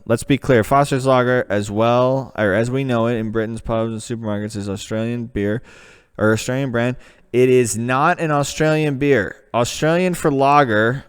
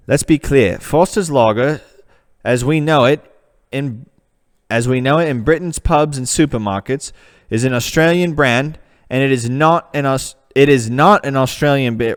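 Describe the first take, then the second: First: Put-on the same page reread in his own American accent. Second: Reading the web page in a put-on British accent. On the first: Back in an American voice, rereading the Foster's page. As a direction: drop the British voice, read it plainly American. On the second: American reading a Foster's page aloud, putting on a British accent. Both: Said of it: "I've got to go back to America for this one".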